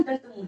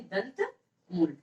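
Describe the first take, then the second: First: Said in the usual way. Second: दंत मूल softly, each word apart; slow, separated. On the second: Shown as a demonstration. Teacher answers own question for students, slow and separated. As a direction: say दंत मूल slowly with a pause.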